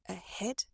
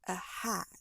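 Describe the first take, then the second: First: The stressed vowel is an E sound. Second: The stressed vowel is a wide A sound. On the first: The speaker calls it right. "If you use the S sound, it would sound like ahead" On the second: The speaker calls it wrong. "instead of ahead"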